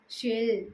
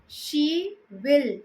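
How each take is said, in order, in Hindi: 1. दोनों शब्द मिलकर एक छोटा अक्षर बन जाते हैं। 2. दोनों शब्द पूरे बोले जाते हैं।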